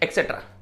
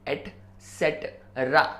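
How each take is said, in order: First: The word begins with an 'ek' sound. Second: The word begins with an 'et' sound. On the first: The speaker calls it wrong. "हम क्या बोलते हैं? ... गलत है ये" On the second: The speaker calls it right. "Once अगेन"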